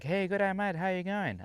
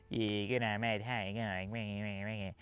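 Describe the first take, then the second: First: High-pitched, hearty Australian greeting, imitated; friendly Aussie greeting. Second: Slow, slurred Australian mumble, exaggerated; tough Aussie accent. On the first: Camper greeting a stranger at the camp kitchen, imitated friendly Aussie accent. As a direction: imitate a chummy Aussie saying hello. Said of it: "he went on like". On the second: Shown as a demonstration. Showing learners what they will hear, exaggerated tough Aussie accent. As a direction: drag it into a thick, garbled Aussie accent. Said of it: "real tough Aussie accent".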